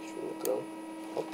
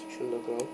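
First: Breathy unvoiced whisper to himself. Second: Said in the usual way. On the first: Real, not acted. Breaking a block, muttered to himself in a whisper. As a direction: whisper it as if not to wake anyone.

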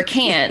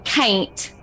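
First: Said in the usual way. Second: "can't" said as "cain't"; mom's Appalachian pronunciation. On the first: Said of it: "for can't". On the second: Retold or imitated. Imitating mom with her family, "can't" said "cain't". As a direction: stretch "can't" into a twangy "cain't". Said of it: "she's suddenly saying".

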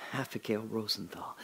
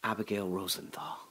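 Both takes have the same delivery.

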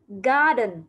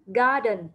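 The two takes are said the same way.

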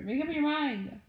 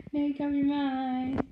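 First: Said in the usual way. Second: "Make up your MIND" drawn out and louder, with "your" pushed; slow exasperated repeat. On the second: Real, not acted. To her sister, repeating it slowly, exasperated. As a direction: spell it out slowly, fed up.

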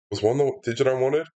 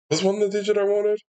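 First: Said in the usual way. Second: High, quick, alarmed self-question; a sudden comic doubt; mock-alarmed. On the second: Real, not acted. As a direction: squeak it out in mock panic.

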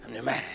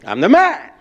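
First: Low, very soft imitation of a boy; half-hearted little boast; not as loud. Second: Punchy, raised show of manliness; big forceful boast; loud demonstration. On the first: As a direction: say it small, falling short of the model. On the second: Shown as a demonstration. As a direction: declare it loud, as a model to copy. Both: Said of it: "he doesn't get loud as me".

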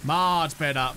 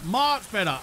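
First: Low contented murmur. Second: Said in the usual way. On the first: Shown as a demonstration. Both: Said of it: "Don't lie to me".

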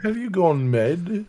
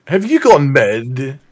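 First: Put-on higher, slow French-accented commander. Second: Loud, drawn-out bad French accent. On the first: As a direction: ask it slowly in a French accent. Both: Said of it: "with a French accent".

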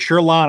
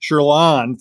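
First: "Sherlin" in a Michigan accent with a hard "ch" start. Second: "Sherlin" pronounced with "sh", not "ch", deliberately; careful pronunciation. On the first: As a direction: say "Sherlin" the Michigan way, "cher-lan". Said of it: "I was using my Michigan, uh, accent there to pronounce it". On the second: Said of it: "I'm sorry, I was using my Michigan". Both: Shown as a demonstration.

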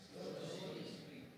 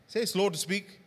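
First: Very slow, whispered "Slow to speak". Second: Said in the usual way. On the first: Shown as a demonstration. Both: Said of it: "Say slow to speak slowly".

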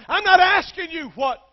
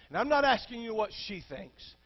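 First: "not" hit hard, much higher and louder; I'm not asking you what, with "not" shouted; emphatic NOT. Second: Said in the usual way. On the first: Acted. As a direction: punch the word "not" like a pulpit thump. Jesus quoted, emphatic.

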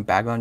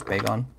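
First: Bagon with a short "a" as in "bag"; mispronounced name. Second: Bagon with a long "ay" as in "bay"; corrected name. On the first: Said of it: "You're saying it's Bagon". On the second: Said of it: "I've been calling him Bagon". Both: Shown as a demonstration.

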